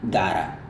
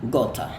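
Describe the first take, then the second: First: The t sounds like a soft flapped d. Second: The t is pronounced as a clear t. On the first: "Itu adalah aksen Amerika" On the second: "kalau aksen Inggris, ... Dia bilang gota"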